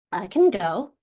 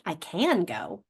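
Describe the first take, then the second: First: Can reduced to a quick uh sound in I can go; natural I can go, vowel swallowed. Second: Slow I can go with can given its full ah; over-careful can, vowel kept; the unnatural careful way, can spelled out; stressed careful can. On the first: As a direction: say can fast so the vowel disappears. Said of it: "Notice it gets swallowed". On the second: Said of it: "It's not". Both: Shown as a demonstration.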